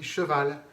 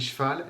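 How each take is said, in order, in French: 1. Chaque syllabe est articulée, y compris le e muet. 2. Le e muet tombe, ce qui resserre les syllabes. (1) "elle a appris" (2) "elle n'a pas appris"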